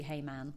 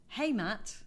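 First: "Hey, man" ending on an n, low and soft; intended greeting. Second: "Hey, Matt" with a crisp t ending; misheard greeting. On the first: Shown as a demonstration. Giving what the line is supposed to be, "man" ending in n. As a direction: end "man" on n, no t. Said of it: "I know it's supposed to be". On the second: Retold or imitated. Quoting what she thinks Chandler says, "Matt" ending in t. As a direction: end "Matt" on a t, no n. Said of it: "it sounds so much like he goes".

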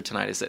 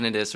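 First: Tinnitus said as tih-NIGH-tus; long-i pronunciation. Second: Tinnitus said as TIN-ih-tus; first-syllable stress pronunciation. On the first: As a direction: hit a long 'nigh' in the middle of tinnitus. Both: Shown as a demonstration. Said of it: "we use both interchangeably".

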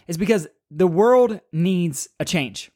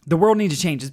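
First: Whispered. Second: Said in the usual way. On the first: Acted. Emphatic core message of podcast.

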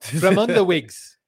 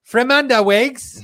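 First: Slow, lightly South African "Fremanda wigs"; mock South African accent. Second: Slow, high mock Australian "Fremanda wigs"; Australian accent. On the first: Host tries the slogan in a light mock South African accent. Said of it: "uh, South African". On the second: Viewer asks for the slogan in a mock Australian accent. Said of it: "an Australian accent".

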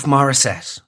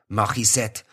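First: Said in the usual way. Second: "Morissette" with a throaty French R; "Morissette" with a mock French guttural R; French-style MORISSETTE. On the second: Shown as a demonstration. Tries the surname in French style.

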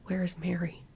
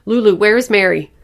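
First: Soft, dawning worry; hushed dread. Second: Loud, high, urgent demand; frantic shout. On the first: Mother suddenly missing her baby girl, hushed dread. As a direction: ask it quietly, almost to yourself. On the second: Mother demanding her missing baby from Lulu, frantic shout. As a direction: shout it at the child in panic. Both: A narrator's reading.

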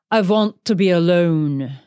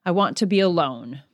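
First: Greta Garbo. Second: Said in the usual way. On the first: Retold or imitated. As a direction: quote it grandly, with a "vant" for "want". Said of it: "Greta Garbo. She's the one who's known for saying that". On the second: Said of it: "known for saying that".

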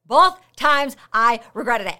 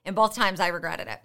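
First: BOTH, TIMES, I and REGRETTED each punched loud; emphatic repeat. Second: Said in the usual way. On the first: Real, not acted. Podcaster owning up to breaking her rule, emphatic word-by-word stress on "Both times I regretted it". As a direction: hit "Both", "times", "I", "regretted" one by one, loudly.

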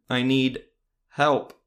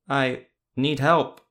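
First: Loud, halting, like learning to speak; jerky unnatural voice. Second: Slow, loud, puppet-like; jaunted marionette voice. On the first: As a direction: sound like a puppet learning words. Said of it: "off, somewhat jerky". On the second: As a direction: speak like a marionette moved by strings. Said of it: "in a jaunted tone". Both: A narrator's reading.

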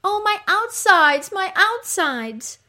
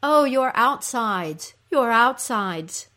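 First: Loud, very high, slow wail; moaning cry. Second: Louder, raised, drawn-out lament; echoed cry. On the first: Underworld queen crying out in agony, moaning cry. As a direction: wail it out in pain. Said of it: "Ereshkigal cries out". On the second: Creatures crying out along with the queen, echoed cry. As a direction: wail along in sympathy, slowly. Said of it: "creatures also cry out". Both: Acted.

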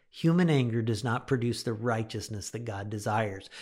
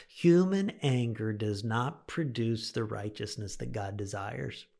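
First: Said in the usual way. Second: Slow emphatic repeat. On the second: Shown as a demonstration. Preacher repeats the key verse to his listeners, slow and emphatic. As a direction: let the repeated verse sink in slowly.

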